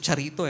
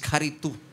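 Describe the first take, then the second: First: The word begins with a ch sound. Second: The word begins with a k sound. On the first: The speaker calls it wrong. "Nasanay tayo sa charito" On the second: The speaker calls it right. "the right pronunciation is karitu"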